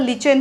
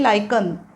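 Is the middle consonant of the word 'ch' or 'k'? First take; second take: ch; k. First: The word is said with a 'ch' sound. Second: The word is said with a 'k' sound. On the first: The speaker calls it wrong. "उच्चार स्पेलिंगनुसार केला तर लिचेन होईल, लिचेन उच्चार नाही आहे" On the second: The speaker calls it right.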